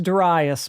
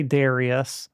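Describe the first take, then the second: First: Darius said duh-RYE-us; preferred pronunciation. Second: Darius said DAIR-ee-us; common pronunciation. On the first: Streamer tells viewers how the game is pronounced, Darius as duh-RYE-us. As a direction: stress the middle of Darius, rhyming with "rye". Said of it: "pronounced Darius, by the way". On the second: Streamer cites how many people say it, Darius as DAIR-ee-us. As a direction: stress the first syllable of Darius, with "ee" in the middle. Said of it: "a lot of people say". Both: Shown as a demonstration.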